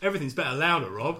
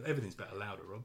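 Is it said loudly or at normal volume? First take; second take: loudly; normal volume. First: It is said loudly. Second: It is said at normal volume.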